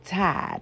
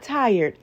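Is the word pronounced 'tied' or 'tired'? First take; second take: tied; tired. First: The word is said like 'tied', without the r. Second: The word is said with its full 'tired' sound. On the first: "T I E D" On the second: "not tired"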